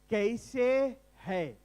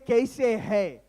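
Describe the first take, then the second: First: It is said slowly. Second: It is said at normal speed.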